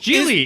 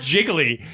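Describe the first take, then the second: First: The first syllable sounds like 'jee'. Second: The first syllable sounds like 'jig'. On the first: The speaker calls it right. "It's Geely" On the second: The speaker calls it wrong. "not Jiggly"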